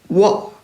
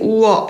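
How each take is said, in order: First: The vowel is said very short, as one glide. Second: The vowel is drawn out long, as two vowels. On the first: The speaker calls it right. "아주 짧게 워" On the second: The speaker calls it wrong. "길게 우어 이렇게 하는 게 아니라"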